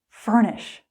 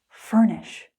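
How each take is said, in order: No difference in how they are said.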